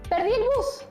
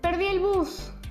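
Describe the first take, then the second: First: It is said in a surprised tone. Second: It is said in a sad tone. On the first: "Decidí decir la frase con sorpresa" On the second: "Intenté decirlo con tristeza"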